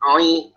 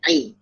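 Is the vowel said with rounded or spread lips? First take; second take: rounded; spread. First: The vowel is rounded, sounding like oi. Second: The vowel is spread and flat, a clean i. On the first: The speaker calls it wrong. "jangan ai kayak banyak banyak yang gitu" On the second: The speaker calls it right. "langsung ai, langsung standby"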